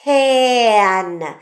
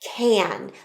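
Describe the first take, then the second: First: The word is drawn out slowly, sound by sound. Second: The word is said at a normal, quick pace.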